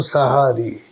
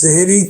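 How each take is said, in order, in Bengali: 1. শব্দটি a স্বরধ্বনি দিয়ে উচ্চারিত হয়, sahari। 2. শব্দটি e স্বরধ্বনি দিয়ে উচ্চারিত হয়, sehri। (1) "আসল শব্দ হলো সাহারি" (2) "আমরা সেহেরি কই"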